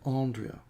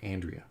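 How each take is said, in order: First: The name is said in a posh Australian accent. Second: The name is said in an American accent. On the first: "if you're posh, you'd say" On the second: "in America"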